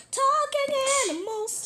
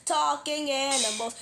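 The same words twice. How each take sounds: First: Much higher squeaky chant. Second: Said in the usual way. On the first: Acted. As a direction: jump way up into a squeak. Theme song, squeaky high take.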